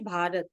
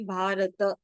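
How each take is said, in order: First: The word ends on a bare final t. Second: The word ends with a vowel after t. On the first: This is the everyday Hindi way of saying it. "how do we pronounce this in uh, Hindi? We will say Bharat" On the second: Every letter is pronounced completely, as in Sanskrit. "in Sanskrit you have to say Bharata"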